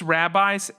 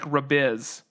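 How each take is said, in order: First: It is said like the word rabbis. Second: It is said like rabiz, ending in z. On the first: The speaker calls it right. "I'm assuming it's rabbis" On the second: The speaker calls it wrong. "was trying to say it like rabiz, but I'm pretty sure I would say it's not rabiz"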